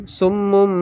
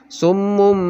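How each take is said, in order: Both takes have the same delivery.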